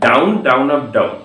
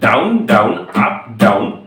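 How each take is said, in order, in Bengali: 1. মাঝের 'down up' জোড়া লাগিয়ে বলা হয়েছে। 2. চারটা শব্দই সমান ফাঁক রেখে বলা হয়েছে। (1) "এরম ভাবে উচ্চারণ করো" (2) "যারা এরম ভাবে বলছো ডাউন ডাউন আপ ডাউন, ভুল"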